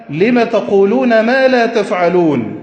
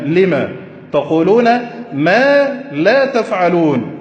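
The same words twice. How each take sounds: First: Slow verse recitation. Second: ما drawn out slowly and weighted; slow down and lean on ما; ما said long and heavy; stress on ما. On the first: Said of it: "أين ما الاستفهامية؟". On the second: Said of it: "انظروا إلى ما هذه". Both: Shown as a demonstration.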